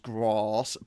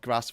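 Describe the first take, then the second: First: It is said in a southern English accent. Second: It is said in a northern English accent. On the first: "north versus south" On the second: "north versus south"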